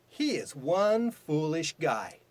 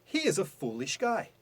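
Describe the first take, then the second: First: Slow, with one pushed hard; stress on one. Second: Said in the usual way. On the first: Shown as a demonstration. Teacher contrasting plain and emphatic sentence, slowly stressing one. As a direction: land on one with conviction. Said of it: "stressing the word one". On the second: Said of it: "What about this one?".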